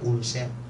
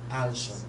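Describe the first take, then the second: First: The word is said in a Filipino-style pronunciation. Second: The word is said in a standard English pronunciation. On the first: The speaker calls it wrong. "Kayo, ang pronunciation niya" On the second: The speaker calls it right. "ang right pronunciation should be ulcer"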